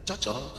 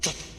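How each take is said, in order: First: The voice rises like an Alor-style question. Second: The voice falls like a statement.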